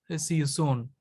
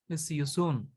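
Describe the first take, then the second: No difference in how they are said.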